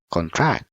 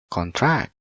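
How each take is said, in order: The two takes are said the same way.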